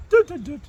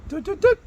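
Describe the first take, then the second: First: High "Doo, doo, doo" dropping at the end; falling electronic beep tune; dishwasher shutdown beep. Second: High sung "Doo, doo, doo" rising at the end; rising electronic beep tune; dishwasher startup beep. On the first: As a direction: beep it like a machine powering down. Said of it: "And when you turn it off, it goes". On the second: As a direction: chirp it like a machine switching on. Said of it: "When you turn it on, it goes". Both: Retold or imitated.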